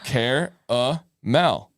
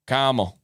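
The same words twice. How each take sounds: First: Caramel drawn out slowly as KEHR-uh-mel, three syllables; Caramel stretched slowly in three syllables; caramel, care-a-mel. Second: Camel said short as KAM-ul, two syllables. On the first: Host sounds out the fancy three-syllable word slowly. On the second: Host compares the word to camel, two syllables. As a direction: Camel clipped short like the animal. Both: Shown as a demonstration.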